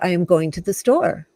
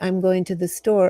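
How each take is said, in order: First: It is said firmly, with insistent emphasis. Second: It is said plainly, without insistence. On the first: It pushes back against someone forbidding it. "because somebody's saying, no, you can't go to the store" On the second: It is a simple statement of plans. "I could just say"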